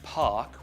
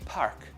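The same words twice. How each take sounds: First: The word is said with no R sound. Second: The word is said with an audible R sound. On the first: "instead of saying words like park" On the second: "we'll have park with an er"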